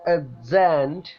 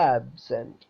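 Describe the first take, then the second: First: The stress is on the second syllable. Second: The stress is on the first syllable. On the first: The word is a verb. "അതിൽ stress cent എന്നതിലാണ്" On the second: The word is a noun or adjective. "ആ എന്നതിനാണ് നമ്മൾ stress കൊടുത്തിട്ടുള്ളത്"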